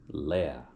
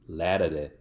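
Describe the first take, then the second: First: The word is cut short to one syllable. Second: The word is said in full, all syllables. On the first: This is the Danish way of saying it. "but they just say lär" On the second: This is the Swedish way of saying it. "they say lärare in in Swedish"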